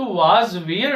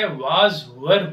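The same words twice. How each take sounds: First: "was where" read with a slow "where" like "wear"; wrong reading. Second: "were" said short like "wer"; correct reading. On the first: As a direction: say "where" long and open as in "wear". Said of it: "नहीं होता है". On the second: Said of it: "होता है". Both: Shown as a demonstration.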